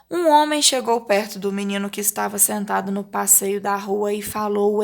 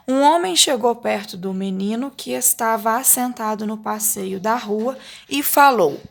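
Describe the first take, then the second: First: "Um homem chegou" run straight on into "falou", no pauses; reading without punctuation. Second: "Um homem chegou" phrased expressively, "falou" set apart and falling; reading with punctuation. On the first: Teacher reading unpunctuated exercise, running "Um homem" through "falou" without intonation. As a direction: read through to "falou" in one unbroken, even stream. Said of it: "Aqui não tem pontuação nenhuma".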